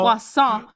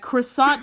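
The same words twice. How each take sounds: First: It is said with a French pronunciation. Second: It is said with an English pronunciation. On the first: The speaker calls it right. "You got to pronounce it" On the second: The speaker calls it wrong. "Croissant doesn't sound French when you pronounce it like that"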